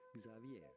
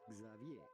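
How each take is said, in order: The two takes are said the same way.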